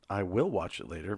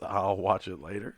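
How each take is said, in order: First: The words I and will are said separately. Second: I and will are joined into one syllable. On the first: The speaker calls it wrong. "Not I Will Watch It Later because that's not the name of the show" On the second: The speaker calls it right. "but it's I'll Watch It Later"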